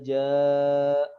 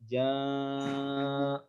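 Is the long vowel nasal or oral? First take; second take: oral; nasal. First: The long vowel is clear, without nasal sound. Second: The long vowel is pushed through the nose. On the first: The speaker calls it right. "harusnya bebas dari dari hidung" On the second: The speaker calls it wrong. "Enggak boleh"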